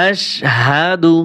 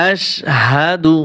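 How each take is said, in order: The two takes are said the same way.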